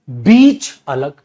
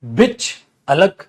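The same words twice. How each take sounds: First: बीच with a long stretched ee, slow and louder; long ee demo. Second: बिच with a short i, said slowly; short i demo. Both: Shown as a demonstration. Teacher contrasting बिच and बीच for students. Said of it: "एक है बिच और एक है बीच".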